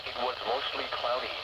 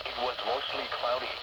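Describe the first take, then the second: No difference in how they are said.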